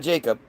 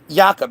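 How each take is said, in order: First: The name begins with a J sound. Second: The name begins with a Y sound. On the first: The speaker calls it wrong. "not Jacob" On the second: The speaker calls it right. "It's actually with the Y"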